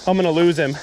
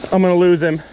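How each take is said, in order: First: Said in the usual way. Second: Louder, panicked cry. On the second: Real, not acted. Angler about to lose the big fish, louder panic. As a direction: near shouting in alarm.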